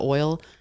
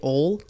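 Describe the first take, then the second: First: The word is said in a standard accent. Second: The word is said in a Baltimore accent. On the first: "instead of" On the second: "they'll say "ol""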